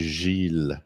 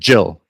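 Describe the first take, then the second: First: The name begins with a soft J sound. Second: The name begins with a hard J sound. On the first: This is the French way of saying it. "It's really soft to say Gilles" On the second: This is the usual English way of saying it. "It's J, like Jill. It's it's a rough one"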